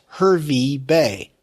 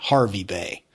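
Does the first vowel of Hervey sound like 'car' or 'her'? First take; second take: her; car. First: The first vowel sounds like the vowel in 'her'. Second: The first vowel sounds like the vowel in 'car'. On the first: The speaker calls it right. "This is clearly H E R V E Y" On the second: The speaker calls it wrong. "not Harvey Bay"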